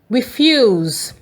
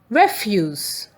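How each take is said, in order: First: The stress is on the second syllable. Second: The stress is on the first syllable. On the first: It means to say no. "When the stress is on F U S E" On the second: It means rubbish or garbage. "When the stress is on R E F"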